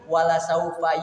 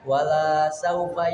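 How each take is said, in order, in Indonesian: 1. Vokal setelah L itu pendek. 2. Vokal setelah L itu dipanjangkan.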